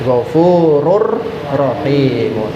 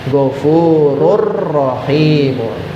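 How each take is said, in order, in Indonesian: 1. Bunyi n menyatu dengan r yang mengikutinya. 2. Bunyi n menyatu dengan r yang mengikutinya.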